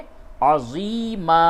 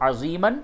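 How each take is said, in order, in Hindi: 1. शब्द का अंत लंबे a स्वर से होता है। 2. शब्द का अंत n ध्वनि से होता है।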